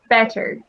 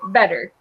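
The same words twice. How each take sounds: First: It is said with a crisp English T. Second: It is said with a soft D-like T.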